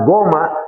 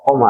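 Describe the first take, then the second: First: The word begins with a hard g sound. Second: The word begins with a deep k sound. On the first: This is how some Arabs say it in everyday dialect. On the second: This is the standard form of the word. "itu artinya ko, koma"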